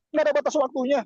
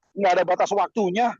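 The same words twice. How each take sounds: First: "Nggak ada batas waktunya" repeated much higher, stress on Nggak; emphatic repeat. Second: Said in the usual way. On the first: Shown as a demonstration. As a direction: lift it high and punch "Nggak" to drive it home. (ulangi lebih tinggi, tekan kata "Nggak")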